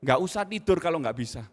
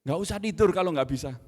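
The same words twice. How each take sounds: First: A harsh father's reprimand; harsh scolding. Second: Louder stress on tidur, scolding; harsh scolding. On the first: Father scolding son over maths homework, harsh and loud. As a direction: sternly scold the child, loud. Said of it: "Uh, kejam ya". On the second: Father repeating his harsh rebuke to son, loud. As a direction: hammer the word tidur at the child. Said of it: "Dan berlebihan". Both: Retold or imitated.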